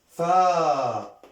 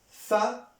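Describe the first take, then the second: First: The vowel is drawn out and long. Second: The vowel is short and clipped. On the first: "voyelle longue" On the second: "voyelle courte"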